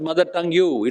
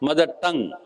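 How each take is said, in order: First: Tongue ends with an added 'yoo' sound. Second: Tongue ends plainly with no added sound. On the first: The speaker calls it wrong. "Don't pronounce it as" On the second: The speaker calls it right. "It should pronounce as"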